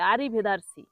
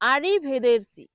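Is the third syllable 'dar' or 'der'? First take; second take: dar; der. First: The third syllable has an 'a' vowel. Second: The third syllable has an 'e' vowel. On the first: The speaker calls it wrong. "ভুল করে মানুষ কি বলে" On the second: The speaker calls it right. "সঠিক উচ্চারণ হবে"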